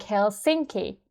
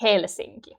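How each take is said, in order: First: "Helsinki" American style, stress moved onto "sin"; American-accented "hel-SINK-ee"; American pronunciation. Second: "Helsinki" Finnish style, HEL stressed and falling; Finnish-accented "HEL-sinki"; Finnish pronunciation. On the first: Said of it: "Americans might say something like". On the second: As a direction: say "Helsinki" like a Finn, front-stressed. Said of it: "but in Finnish we say". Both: Shown as a demonstration.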